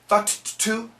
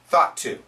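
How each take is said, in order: First: The two T sounds are said separately. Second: The two T sounds are joined into one. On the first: The speaker calls it wrong. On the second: The speaker calls it right.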